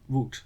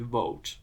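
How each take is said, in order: First: "wood" with a short oo; wood pronunciation. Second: "woad" with a long o; woad pronunciation. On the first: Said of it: "as opposed to wood". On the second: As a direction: say "woad" with an oa vowel. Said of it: "this is just woad". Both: Shown as a demonstration.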